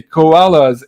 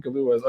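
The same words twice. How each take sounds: First: Koalas said slowly, koh-AH-luhs, stress on AH; deliberate correction koalas, drawn out and clear; corrected word koalas. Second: Kaluas said like the liqueur Kahlua, kah-LOO-ahs; wrong word Kaluas. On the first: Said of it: "not Kaluas". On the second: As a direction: mistaken reading Kaluas, stress on LOO. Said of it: "Okay, koalas". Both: Shown as a demonstration.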